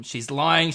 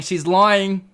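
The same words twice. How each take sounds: First: Said in the usual way. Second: Higher and louder, mock accusing; louder repeat. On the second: Real, not acted. Teasing chat, repeats the accusation much louder. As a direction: call it out to chat, louder the second time.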